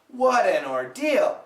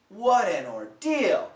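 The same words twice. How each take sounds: First: An American accent with a flapped, linked T. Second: An American accent with a flapped, linked T.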